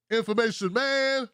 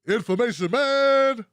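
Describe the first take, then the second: First: Said in the usual way. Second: Loud, punchy announcer call of the name; hype shout-out. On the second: Acted. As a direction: belt it out like a hype man. Hyped shout-out to a channel.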